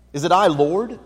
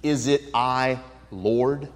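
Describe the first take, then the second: First: "I" lifted higher and louder; a questioning "I" with a rise on "Lord"; stress on I. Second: Said in the usual way. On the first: Shown as a demonstration. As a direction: lean on "I" in "Is it I, Lord". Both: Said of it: "Did you notice what the disciples said".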